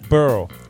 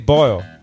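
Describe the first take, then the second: First: The vowel is an 'er' sound, like 'burl'. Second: The vowel is the 'oy' sound of 'boil'. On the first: "They say burl" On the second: "in New Orleans, they don't say boil"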